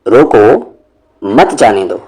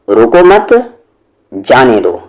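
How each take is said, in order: First: The pause comes right after रोको. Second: The pause comes right after मत.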